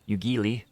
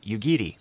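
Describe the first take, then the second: First: The middle consonant is a clear L sound. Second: The middle consonant falls between R and L. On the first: The speaker calls it wrong. "There's no L sound" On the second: The speaker calls it right. "It is something that is in between"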